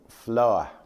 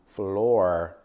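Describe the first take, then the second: First: The final r sound is dropped. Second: The final r sound is clearly pronounced. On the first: "more people were dropping R from their pronunciation" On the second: "instead of floor"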